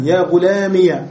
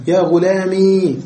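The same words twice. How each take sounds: First: يا غلامي ending in -iya, the ya opened with a; teacher shows the opened ya on غلامي; final ya with a. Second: يا غلامي ending in a long i, nothing after it; teacher shows the silent ya on غلامي; silent final ya. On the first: غلامي بالياء المفتوحة. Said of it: "وبالياء فتحا". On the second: غلامي بالياء الساكنة. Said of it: "وإسكانا". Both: Shown as a demonstration.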